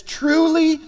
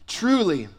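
First: "Truly" hit high and loud, drawn out; emphatic truly. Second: Said in the usual way. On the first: Retold or imitated. Pastor voicing Jesus to Nicodemus, "Truly" stressed high. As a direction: ring out "Truly" like a solemn call. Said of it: "he's emphasizing". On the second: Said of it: "he's underscoring".

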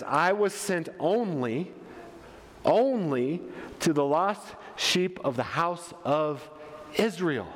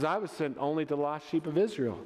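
First: Measured delivery with long pauses; ONLY drawn out and repeated after a pause; slow, deliberate quote. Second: Said in the usual way. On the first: Acted. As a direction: let each phrase land separately. Quotes Jesus's answer weightily.

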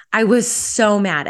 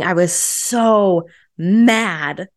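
First: Said in the usual way. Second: Very slow, with "so" stretched and rising; drawn-out emphasis. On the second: Real, not acted. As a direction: lean hard into the word "so", dragging out "I was so mad". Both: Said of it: "I was yelling and screaming".

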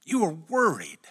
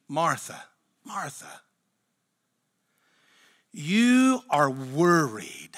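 First: Said in the usual way. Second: With feeling. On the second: Retold or imitated. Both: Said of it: "He reads with such feeling".

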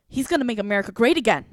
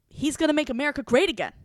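First: Louder and quicker, a mocking huffy chant of the slogan; huffy retort. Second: Higher and louder, a mocking singsong repeat of the slogan; huffy retort. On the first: Imitating the huffy classmate who repeats a slogan. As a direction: toss off the slogan like a huffy student. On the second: Imitating the stubborn classmate repeating the slogan. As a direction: mimic her stubborn slogan, pitched up. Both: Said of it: "she gets huffy with me".

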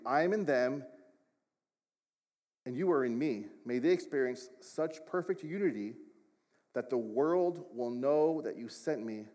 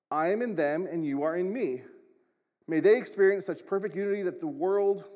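First: Measured scripture reading with pauses between phrases; reading slower. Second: Scripture read louder and higher, running straight on; reading too quickly. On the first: Shown as a demonstration. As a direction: take the verse slower, phrase by phrase. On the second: Real, not acted. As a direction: push through the verse loudly without lingering. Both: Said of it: "let me read that slower".

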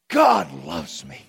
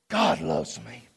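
First: Full loud declaration; proclaimed. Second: Whispered, awed and low; hushed. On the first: Pastor declaring it aloud to church, loud. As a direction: declare it boldly. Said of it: "loud repeat". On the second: Pastor whispering the truth to church after the climax, hushed. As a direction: drop to a breathless whisper. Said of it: "hushed after climax". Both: Real, not acted.

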